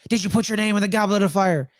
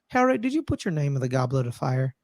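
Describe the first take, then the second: First: It is yelled loudly. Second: It is said calmly, without yelling.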